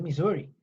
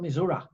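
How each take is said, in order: First: It uses the general, standard pronunciation of the name. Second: It uses the pronunciation heard from local residents. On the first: "se dice Missouri" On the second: "en Missouri lo dicen, no, I'm from Missouri"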